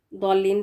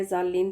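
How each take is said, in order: First: ضالین with a heavy "Daw" start; thick d opening ضالین; Daad reading. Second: ضالین said as "zaal-leen"; z in place of Daad in ضالین; mistaken z reading. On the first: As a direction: say ضالین as "Dawl-leen". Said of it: "اگر ہم اس کو". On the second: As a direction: open ضالین on a z. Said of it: "ضالین پڑھے یا پھر ارضی پڑھے". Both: Shown as a demonstration.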